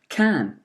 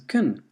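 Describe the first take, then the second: First: The word keeps its full vowel. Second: The word is reduced to a weak vowel.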